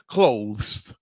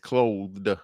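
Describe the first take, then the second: First: The word ends with a z sound. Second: The word ends with a d sound. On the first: The speaker calls it wrong. "I know they said it wrong" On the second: The speaker calls it right. "It's clothed"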